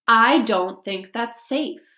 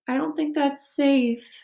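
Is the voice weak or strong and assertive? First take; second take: assertive; weak. First: It is said in a strong, assertive voice. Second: It is said in a weak, unassertive voice.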